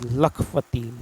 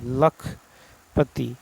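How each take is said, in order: First: Said in the usual way. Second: Spelled out slowly. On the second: Shown as a demonstration. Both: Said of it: "सही वर्तनी वाला शब्द".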